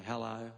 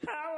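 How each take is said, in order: First: Plain, easy Australian tone; low-key Australian greeting; Aussie hello. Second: Mock mangled foreign hello; high, silly mis-intoned greeting; foreigner as heard. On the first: Shown as a demonstration. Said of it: "that tone that makes me sound like an Aussie". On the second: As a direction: greet like a comically off-key foreigner. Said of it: "They probably hear".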